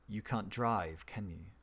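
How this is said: The tag question sounds certain and confirming. The speaker is fairly sure of the fact. "so you feel more certain about that information"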